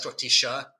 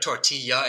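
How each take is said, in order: First: The double L is sounded like sh. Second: The double L is not sounded like sh. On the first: "they pronounce that like a sh" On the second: "instead of tortilla"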